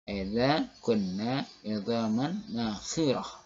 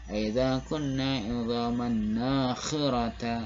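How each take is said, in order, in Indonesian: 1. Kata terakhir berakhir dengan bunyi h yang tidak dibunyikan. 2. Kata terakhir berakhir dengan vokal a terbuka. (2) "Jangan coba-coba misalnya membaca"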